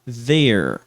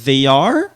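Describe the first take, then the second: First: The two words merge into one syllable. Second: Two full words are said separately.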